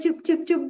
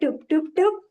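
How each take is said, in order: First: The first sound is a clear ch sound. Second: The first sound is a lisped t sound.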